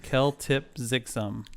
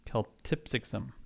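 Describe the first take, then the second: First: Keltipzixum spelled out slowly sound by sound; phonetic sounding out. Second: Keltipzixum said again, softer and falling; smoother second reading. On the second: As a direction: Keltipzixum repeated quietly with a fall. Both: Shown as a demonstration. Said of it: "say this phonetically first".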